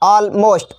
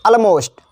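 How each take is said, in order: First: "almost" separated as all, most; two distinct parts in "almost", all then most; split into two words. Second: Said in the usual way. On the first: Shown as a demonstration. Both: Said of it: "इसका भी संधि विच्छेद है".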